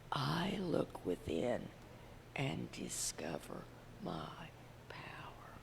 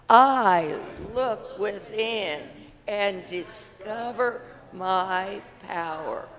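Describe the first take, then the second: First: It is said quietly. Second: It is said loudly.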